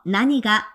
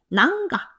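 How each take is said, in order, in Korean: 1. 'nani ga'라고 해요. 세 음절이에요. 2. 'nan ga'라고 해요. 두 음절이에요. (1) "나니가 라고 발음하셔야 돼요" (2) "낭가 발음이 불편해서"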